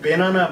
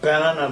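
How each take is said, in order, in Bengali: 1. প্রথম স্বরধ্বনিটি e-এর মতো শোনায়। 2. প্রথম স্বরধ্বনিটি cat-এর স্বরধ্বনির মতো শোনায়। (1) "আমি এটাকে বেনানা বলছি না" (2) "আমি এটাকে ব্যানানা বলছি না"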